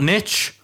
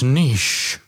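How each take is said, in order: First: The word rhymes with pitch, a short vowel. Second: The word rhymes with leash, a long vowel. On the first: This is the American way of saying it. "the American pronunciation ... in the UK, it's not niche" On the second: This is the British, French-derived way of saying it. "it's niche. We use the Francais. Pronunciation"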